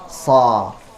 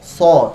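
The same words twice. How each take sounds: First: The lips stay unrounded, not pushed forward. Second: The lips are pushed forward and rounded. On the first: The speaker calls it right. "Tetapi so" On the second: The speaker calls it wrong. "jadi bukan so"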